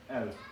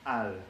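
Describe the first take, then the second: First: The article is reduced to mostly an L sound. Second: The article has a full 'a' vowel before the L. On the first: This is the Beirut dialect form of the word. "it's pretty much reduced to just an L sound" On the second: This is the formal form of the word. "the word for the in Arabic"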